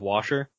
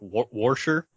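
First: No r sound is inserted after the first vowel. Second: An r sound is inserted after the first vowel. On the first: This is the usual way of saying it. "instead of washer" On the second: This is an older local Cincinnati way of saying it. "older people from Cincinnati is that they say things like washer"

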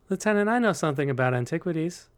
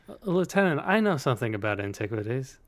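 First: It is delivered flat, like Miller. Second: It is delivered with too much expression.

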